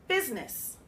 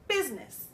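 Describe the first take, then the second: No difference in how they are said.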